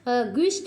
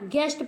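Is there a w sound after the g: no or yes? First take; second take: yes; no. First: A w sound follows the g. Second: No w sound follows the g. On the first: The speaker calls it wrong. "ग्विस्ट नहीं पढ़ते हैं" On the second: The speaker calls it right. "यू silent है"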